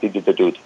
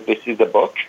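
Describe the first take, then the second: First: The consonants are all replaced with D. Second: The consonants are pronounced normally. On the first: "I would pronounce all of it like" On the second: "if I wanted to say this is a book"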